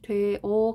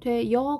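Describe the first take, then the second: First: The final vowel is a plain eo, no glide. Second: The final vowel has a y-glide, sounding yeo. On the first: "되어 가능하고" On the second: "되여 가능해"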